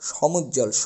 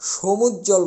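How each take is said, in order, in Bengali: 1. প্রথম স্বরধ্বনিটি খোলা 'aw' ধ্বনি। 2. প্রথম স্বরধ্বনিটি বন্ধ 'oh' ধ্বনি। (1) "আমাদের বলতে হবে সমুজ্জ্বল, স অ উচ্চারিত হবে" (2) "আমরা সমুজ্জ্বল বলতে পারবো না, সো বলতে পারবো না"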